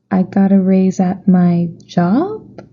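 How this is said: The voice rises at the end.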